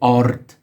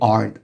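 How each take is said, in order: First: The r is rolled with the tongue tip. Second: The r is a smooth English-style r. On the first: The speaker calls it right. "I should say ard" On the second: The speaker calls it wrong. "the English part of my brain is taken over. I shouldn't say ard"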